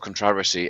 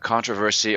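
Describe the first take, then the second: First: It is said in the English pronunciation. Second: It is said in a non-English pronunciation.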